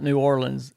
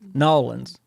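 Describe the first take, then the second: First: The name is said with all its syllables. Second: The name is squeezed into two short syllables. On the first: The speaker calls it wrong. "she says I say it wrong" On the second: The speaker calls it right. "That's it"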